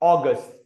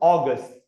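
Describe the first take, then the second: Both takes have the same delivery.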